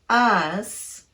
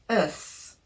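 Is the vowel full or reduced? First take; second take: full; reduced. First: The vowel is full and clearly pronounced. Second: The vowel is a very short, reduced schwa. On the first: The speaker calls it wrong. "not us" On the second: The speaker calls it right. "It's the schwa vowel"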